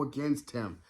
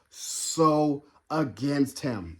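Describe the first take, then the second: First: Said in the usual way. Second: "so" leaned on, whole phrase drawn out slowly; emphatic slow repeat. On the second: Real, not acted. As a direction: stretch out "so against him" to drive it home.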